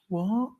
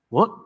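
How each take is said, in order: First: It is said in a sad way. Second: It is said in a surprised way.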